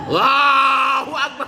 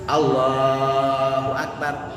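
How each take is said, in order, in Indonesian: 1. Diteriakkan dengan sangat keras dan kasar. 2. Diucapkan dengan jelas pada volume normal. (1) "Bukan keras dalam artian gegerowokan. ... bukan gitu ya" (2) "kan keras ya"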